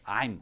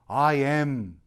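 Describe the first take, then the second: First: The two words are joined into one syllable. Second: The two words are said separately and fully. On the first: It is an ordinary neutral statement. "착 붙여서 쓰는 거예요" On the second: The speaker is stressing authority or a special situation. "I am이라고 말을 한다는 거예요"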